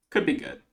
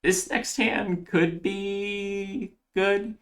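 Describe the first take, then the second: First: Short, higher-pitched falling echo; quick repeat. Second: High, stretched-out tentative musing; drawn-out hedging. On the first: Player confirming the next hand to viewers, quick repeat. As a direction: say it briefly, pitched up then dropping. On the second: Player sizing up the next hand, drawn-out hedging. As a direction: stretch it out slowly, pitched up, unsure. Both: Real, not acted.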